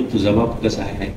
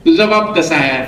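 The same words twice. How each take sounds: First: Quiet pointed question. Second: तुझा hit hard, falling tune; firm repeated question. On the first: Speaker corners the student, low and soft. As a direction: lower and softer, pressing on बाप. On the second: Speaker repeats the question to the student, firm and demanding. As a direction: repeat तुझा बाप कसा आहे firmly, stressing तुझा. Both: Retold or imitated.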